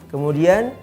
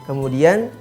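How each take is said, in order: Both takes have the same delivery.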